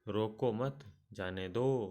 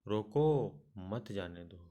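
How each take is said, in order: First: It is said without any pause inside. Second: There is a pause after the first word. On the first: The meaning is unclear. "पहले वाक्य में अर्थ स्पष्ट नहीं होता" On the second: The listener is told to stop the person. "दूसरे वाक्य में रोको के बाद अल्प विराम"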